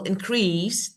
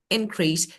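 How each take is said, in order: First: The stress is on the second syllable. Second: The stress is on the first syllable. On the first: It is used as a verb. "that is verb" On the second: It is used as a noun. "So this is noun. For noun, in, like this"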